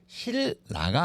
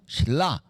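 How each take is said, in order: First: The second syllable starts with an n sound. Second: The second syllable starts with an l sound. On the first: The speaker calls it wrong. "실라가 아니고" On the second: The speaker calls it right. "이렇게 연속해서 발음을 좋게 하기 위해서"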